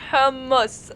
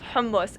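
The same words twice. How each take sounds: First: The word is said with an Arabic pronunciation. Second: The word is said with an English pronunciation. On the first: The speaker calls it right. "I will always make it a point to say it properly" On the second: The speaker calls it wrong. "instead of saying it the way I usually say it"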